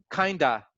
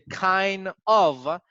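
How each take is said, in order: First: It is run together as one word. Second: It is said as two separate words. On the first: "se hace una sola y suena como kinda" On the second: "la contracción del, del kind of"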